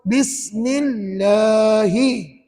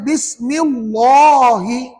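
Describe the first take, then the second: First: The L in Allah is sounded thin and light. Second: The L in Allah is sounded thick and heavy. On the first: The speaker calls it right. "Nipis. Maka kena baca gini ikut" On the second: The speaker calls it wrong. "Jangan baca Bismillahi"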